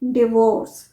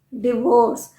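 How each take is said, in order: No difference in how they are said.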